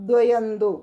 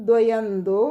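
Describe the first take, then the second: Both takes have the same delivery.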